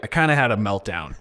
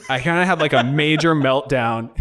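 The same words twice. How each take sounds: First: Said in the usual way. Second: "major" pushed up, then laugh into "meltdown"; stress on major. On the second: Real, not acted. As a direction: lift "major" higher with a laugh.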